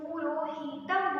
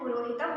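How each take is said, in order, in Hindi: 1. बीच के स्वर लंबे खींचे जाते हैं। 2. बीच के स्वर छोटे रखे जाते हैं। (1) "अगर हम पुरोहितम बोलेंगे तो ये गलत हो जाएगा" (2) "इसका जो उच्चारण होगा वो पुरोहितम होगा"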